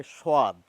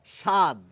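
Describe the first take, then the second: First: স্বাদ as shoad, with a wa glide; village pronunciation. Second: স্বাদ as shad, with no w sound; standard pronunciation. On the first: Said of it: "গ্রাম বাংলায় বলা হয় স্বাদ". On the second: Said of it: "আরেকটি শব্দ দেখুন". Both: Shown as a demonstration.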